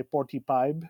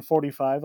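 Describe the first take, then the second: First: Forty-five with a hard P sound: "porty-pive"; Filipino accent. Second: Said in the usual way. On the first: Shown as a demonstration. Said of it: "with the P". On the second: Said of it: "instead of saying forty-five".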